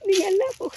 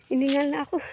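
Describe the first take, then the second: First: Higher, louder, laughing through lack of breath. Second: Breathless from the uphill walk; out of breath. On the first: After climbing, repeating it with a laugh. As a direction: laugh it off while still panting. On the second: Climbing the slope, admitting she's out of breath. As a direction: puff it out between breaths. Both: Real, not acted.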